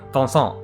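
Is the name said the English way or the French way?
French. It is said with French nasal sounds. "like a French pronunciation of Vincent"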